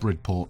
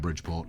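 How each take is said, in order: First: The name begins with 'brid', with no 'dj' sound. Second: The name begins with 'bridge', with a 'dj' sound. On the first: The speaker calls it right. "I'm pretty sure it's Bridport" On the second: The speaker calls it wrong. "rather than Bridgeport"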